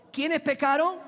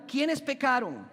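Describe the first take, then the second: First: Higher and louder, demanding an answer; louder prompt. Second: Said in the usual way. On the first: Shown as a demonstration. Preacher prodding a silent congregation, louder. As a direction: push the congregation to shout back. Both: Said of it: "Yo no escuché aquí".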